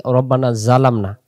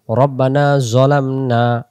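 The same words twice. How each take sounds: First: জালামনা with a light, open "za"; thin the z and open the vowel in জালামনা; mistaken thin za. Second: Slow recitation, heavy rounded z in জলামনা; thick zo sound. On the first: Teacher showing a common mistake, thin za. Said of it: "জালামনা বললে তখন জা আসতে পারে". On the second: Teacher reciting the dua correctly, heavy zo. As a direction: say জলামনা with a full, backed "zo". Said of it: "মোটা আওয়াজে জ". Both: Shown as a demonstration.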